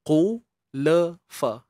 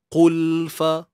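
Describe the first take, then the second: First: An extra vowel sounds after the l before f. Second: The l is held and goes straight into f. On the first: The speaker calls it wrong. "Kalau yang tawallud tu dia ibarat ada tiga gerakan" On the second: The speaker calls it right. "Pastikan ada dua step sahaja"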